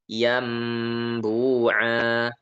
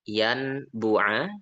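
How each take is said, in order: First: The sound before the b is an m. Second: The sound before the b is an n.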